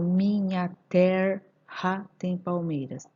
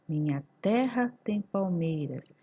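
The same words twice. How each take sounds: First: It is split into separate syllables. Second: It is said smoothly as natural speech.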